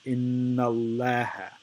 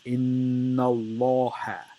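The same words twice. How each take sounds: First: The l in Allah sounds light and thin. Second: The l in Allah sounds heavy and full. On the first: The speaker calls it wrong. "The wrong way to say it" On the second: The speaker calls it right. "the lamb of the word Allah is heavy"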